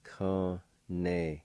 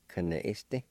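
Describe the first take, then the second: First: Con-ne-iste broken into slow, held syllables. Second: Said in the usual way. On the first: Shown as a demonstration. Teacher repeats number two for learners, syllable by syllable. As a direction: sound out Con-ne-iste piece by piece. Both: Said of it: "I'll pronounce these words".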